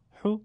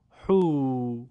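First: حو as a brief "hu"; short vowel. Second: حو as a drawn-out "huu"; long vowel. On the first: Teacher reads the damma drill, حو kept short. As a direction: say حو short, one beat. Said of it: "کوتاه تلفظ بکنید". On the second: Teacher reads the madd drill, حو held long. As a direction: stretch حو over two beats. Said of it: "با واو مدی به صورت کشیده". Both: Shown as a demonstration.

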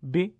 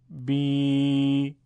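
First: "بی" as a brief bi; short i with no stretch; short kasra. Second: "بی" held as a long, level bee; louder, stretched-out i on بی; long madd ya. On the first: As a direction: cut the vowel of بی short. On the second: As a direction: draw بی out on one steady note. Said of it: "یه بار با یاء مدی". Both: Shown as a demonstration.

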